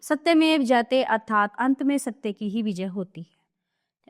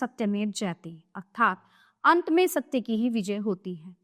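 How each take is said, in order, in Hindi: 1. यह बिना रुके एक प्रवाह में पढ़ा जाता है। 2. यह वाक्यांशों के बीच विराम लेकर पढ़ा जाता है। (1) "हमने फ्लो में पढ़ा, इसमें ना कोई विराम चिन्ह है" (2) "अब इसे अनुच्छेद को पुनः यानी दोबारा पढ़िए।"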